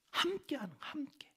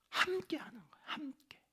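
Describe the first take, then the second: First: Whispered, high and hushed; a hushed echo of the key word. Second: Hushed whisper, pitched up; whispered emphasis on togetherness. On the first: Whispered repetition for emphasis. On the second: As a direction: lean in and breathe the word. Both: Acted.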